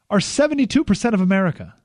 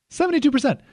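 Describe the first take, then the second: First: Said in the usual way. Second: "Seventy-two percent" much higher, hammered home; emphatic repeat. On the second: Shown as a demonstration.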